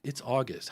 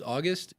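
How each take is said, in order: First: "It's August." settled with a falling tune; answering fall. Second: August? asked with a rising tune; questioning rise. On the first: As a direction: state "It's August." flatly, pitch dropping on August. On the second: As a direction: say "August?" as a puzzled question, pitch lifting at the end. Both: Shown as a demonstration.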